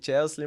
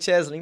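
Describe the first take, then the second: First: The name is said like 'Chelsea'. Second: The name is said like 'Chesley'. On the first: The speaker calls it wrong. "muita gente fala errado" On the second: The speaker calls it right. "mas no caso é Chesley"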